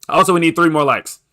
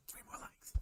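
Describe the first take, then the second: First: Said in the usual way. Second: Barely audible whispered repeat. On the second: Real, not acted. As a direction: whisper it very faintly. Hushed repeat of his appeal.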